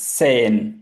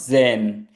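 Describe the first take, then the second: First: The word begins with an s sound. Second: The word begins with a z sound. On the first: The speaker calls it right. "It's सेन" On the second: The speaker calls it wrong. "It's not जेन"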